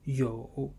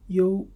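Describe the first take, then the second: First: The tone dips low, then rises. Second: The tone stays high and level.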